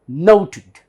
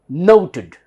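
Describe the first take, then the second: No difference in how they are said.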